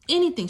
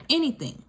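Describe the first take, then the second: First: Anything. cried out high and loud; emphatic anything. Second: Anything. stressed, raised a little; first Anything. firmly stressed; emphatic anything. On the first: To the audience, repeating it, emphatic high cry. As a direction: hit Anything. hard and high. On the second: To the audience, first of two, firm stress. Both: Real, not acted.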